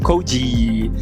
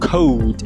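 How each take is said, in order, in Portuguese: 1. Uma vogal extra é acrescentada depois da consoante final. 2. A palavra termina limpa, na consoante final. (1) "e não code" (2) "Para falar código é code"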